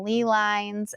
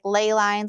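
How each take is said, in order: First: The first word rhymes with 'see'. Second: The first word rhymes with 'day'. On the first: This is how the new narrator says it. "now she's saying lee lines" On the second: This is how the earlier narrators said it. "they called these things, like, ley lines"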